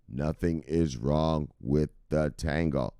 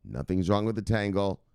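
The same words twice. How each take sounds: First: Slow, with "is" drawn out and stressed. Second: Said in the usual way. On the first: Shown as a demonstration. Telling worried viewers nothing is wrong, slow with stressed "is". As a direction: lean on "is" slowly to reassure. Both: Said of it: "So settle down".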